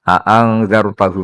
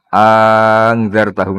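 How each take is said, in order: First: Both glottal stops at the start are fully pronounced. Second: The two glottal stops merge into one sound. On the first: "Hamzahnya wazan af'ala angdaro juga dibaca tahqiq" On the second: "bil idgham berarti apa?"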